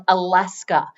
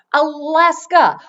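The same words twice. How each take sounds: First: Said in the usual way. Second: Alaska drawn out slowly, higher and louder; emphatic Alaska. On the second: Shown as a demonstration. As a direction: lean on Alaska, stretching it.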